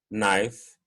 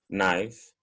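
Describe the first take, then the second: No difference in how they are said.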